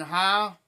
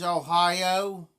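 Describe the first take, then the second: First: Ohio clipped to "Ohia"; local pronunciation. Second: Ohio with a full final "oh"; standard pronunciation. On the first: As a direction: say Ohio the southern Ohio way. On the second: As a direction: Ohio with all three syllables sounded. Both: Shown as a demonstration. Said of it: "People says Ohio".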